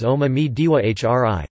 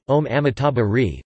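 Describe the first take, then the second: First: "Om Ami Diwa Hri", with "diwa" in place of "tabha"; Tibetan pronunciation. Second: OM AMITABHA RI with "tabha ri" at the end; Sanskrit form. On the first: Narrator giving the mantra's Tibetan version, Tibetan pronunciation. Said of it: "pronounced in its Tibetan version as". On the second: Narrator giving the Sanskrit mantra, Sanskrit pronunciation. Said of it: "The Sanskrit form of the mantra". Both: Shown as a demonstration.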